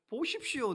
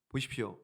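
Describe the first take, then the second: First: 보십시오 said high and protesting; much higher indignant 보십시오; indignant Gideon. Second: Said in the usual way. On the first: Acted. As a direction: throw out 보십시오 as a complaint. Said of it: "따지는 거예요".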